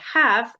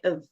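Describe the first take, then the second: First: The word is said in its full form. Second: The word is reduced to a weak 'of' sound. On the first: The speaker calls it wrong. "we don't say have" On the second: The speaker calls it right. "we say of"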